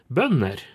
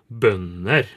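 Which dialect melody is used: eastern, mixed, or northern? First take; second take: northern; eastern. First: Northern melody, with higher pitch on the first syllable. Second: Spoken with the eastern and Trøndelag Norwegian melody. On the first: "på nordnorsk så vil det ligge høyere på første" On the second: "trøndersk og østnorsk så vil det jo bli bønder"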